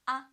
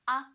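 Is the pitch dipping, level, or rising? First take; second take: level; level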